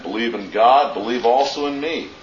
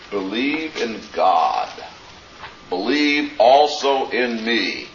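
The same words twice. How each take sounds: First: Said in the usual way. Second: "Believe" and "also" drawn out, slow and weighty; slow solemn emphasis. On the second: Shown as a demonstration. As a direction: lay each word down slowly, "Believe in God. Believe also in me.". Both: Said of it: "the double command".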